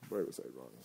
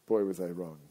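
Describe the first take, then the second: First: Low, much softer repeat; quiet aside. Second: Said in the usual way. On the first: Shown as a demonstration. Host echoing himself to listeners in a low aside. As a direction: mutter it to yourself, dropped low.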